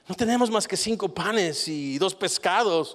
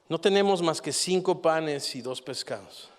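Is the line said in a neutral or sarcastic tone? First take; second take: sarcastic; neutral. First: It is said in a sarcastic tone. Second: It is read in a plain, neutral tone. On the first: "Yo le pondría esta entonación" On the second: "Tenemos las palabras, pero no tenemos la entonación"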